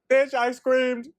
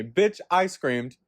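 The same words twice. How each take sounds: First: Much higher, louder, hammed-up exclamation; worked-up squeal. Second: Said in the usual way. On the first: Real, not acted. Reliving the elevator scare, high excited squeal. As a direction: squeal it in comic outrage. Escalated repeat about screaming.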